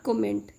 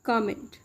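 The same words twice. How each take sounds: First: "comment" as co-MENT, with "o"; mistaken pronunciation. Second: "comment" as KAH-ment; correct pronunciation. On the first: Teacher showing learners what not to say, mispronounced. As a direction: say "comment" with a rounded o and full "ment". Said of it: "It's not comment". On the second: Teacher correcting the common mistake, careful pronunciation. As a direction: say "comment" with an open "ah" first. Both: Shown as a demonstration.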